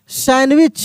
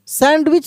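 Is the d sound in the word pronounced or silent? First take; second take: silent; pronounced. First: The d sound is left out in the middle. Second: The d sound is pronounced in the middle. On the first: The speaker calls it right. "यहाँ पे डी जो होता है वो silent है" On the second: The speaker calls it wrong. "सैंडविच नहीं"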